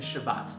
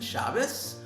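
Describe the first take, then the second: First: The word ends with a T sound. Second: The word ends with an S sound.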